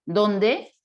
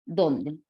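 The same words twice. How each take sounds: First: ¿Dónde? loud, rising at the end; ¿Dónde? projected with a rising tune; loud rising question. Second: ¿Dónde? dropped low, no rise; ¿Dónde? flat at the bottom of the voice. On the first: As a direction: call out ¿Dónde? like a real question. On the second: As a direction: say ¿Dónde? low and level as a plain word. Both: Shown as a demonstration. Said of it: "quiero que veas estas partículas".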